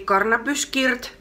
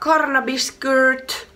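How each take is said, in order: First: It is said with Finnish-style pronunciation. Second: It is said with English-like pronunciation.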